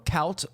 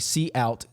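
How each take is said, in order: First: It is said as one syllable, like count. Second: It is said as the letter C plus out. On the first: The speaker calls it wrong. "I'll pronounce this incorrectly first" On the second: The speaker calls it right. "You want to say C out"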